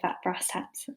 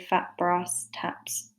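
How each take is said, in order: First: It is said in a northern English accent. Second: It is said in a non-northern English accent. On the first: The repeated vowel sound makes a stronger image. The speaker calls it right. "if you've got like a slight northern accent like I have" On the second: The repeated vowel sound is lost. The speaker calls it wrong. "in which case it doesn't work so well"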